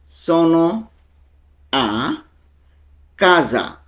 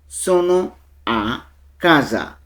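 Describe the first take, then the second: First: The phrase is said slowly and deliberately. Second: The phrase is said at normal speed.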